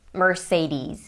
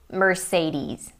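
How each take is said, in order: Both takes have the same delivery.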